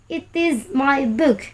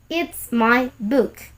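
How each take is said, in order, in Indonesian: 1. Kata it dan is diucapkan terpisah. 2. It dan is disingkat menjadi it's.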